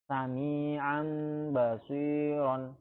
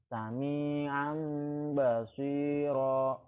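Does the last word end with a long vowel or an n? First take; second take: n sound; long vowel. First: The last word ends with an n sound. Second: The last word ends with a long vowel.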